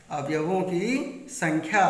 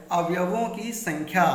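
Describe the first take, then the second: First: अवयवों की संख्या said again slowly, each word weighed; slow repeat. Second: Said in the usual way. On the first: Shown as a demonstration. Teacher repeating the heading to students, slow and emphatic. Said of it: "teacher repeats point for emphasis". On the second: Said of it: "teacher introduces next point".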